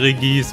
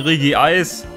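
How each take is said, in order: First: The name is said as Re-gis, two syllables. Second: The name is said as Re-gi-eis, three syllables. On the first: This is a personal habit over the years. The speaker calls it wrong. "Aber ich sage Regis" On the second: This is the usual, likely correct form. The speaker calls it right. "viele sagen Regieis. Es heißt wahrscheinlich auch Regieis"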